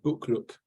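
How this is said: The name is said with a Swedish pronunciation. "you pronounce it uh, Bokluk, which is live smart in Swedish"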